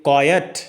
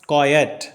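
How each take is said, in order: No difference in how they are said.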